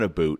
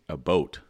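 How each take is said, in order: First: The second syllable has an oo vowel. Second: The second syllable has an oh vowel. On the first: This is the stereotype others mock. The speaker calls it wrong. "we're accused of saying a boot, but it's not a boot" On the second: This is how locals actually say it. The speaker calls it right. "It's a boat. Like like Northern Ontario"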